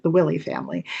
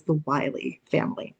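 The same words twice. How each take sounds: First: "Willie" said WILL-ee; Willie with short i. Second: "Wiley" said WHY-lee; Wiley with long i. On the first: Lecturer giving some people's alternative pronunciation, "Willie" as WILL-ee. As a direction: say "Willie" with first syllable like "will". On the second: Lecturer naming the family in the disaster, "Wiley" as WHY-lee. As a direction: say "Wiley" with first syllable like "why". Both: Shown as a demonstration. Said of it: "Some people pronounce it".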